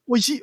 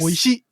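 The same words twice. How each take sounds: First: The word is cut short with a glottal stop. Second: The word ends with its full final vowel.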